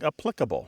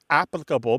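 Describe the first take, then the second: First: The stress is on the second syllable. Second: The stress is on the first syllable. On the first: This is the newer pronunciation. "that stress in the pronunciation to the second syllable" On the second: This is the older pronunciation. "words like applicable becoming"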